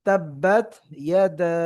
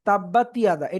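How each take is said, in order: First: The final t has no vowel before yada. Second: The final t is voweled, giving tiyada. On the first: The speaker calls it right. "আপনাকে তাটা সাকিন করে পড়তে হবে" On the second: The speaker calls it wrong. "এটা ভুল"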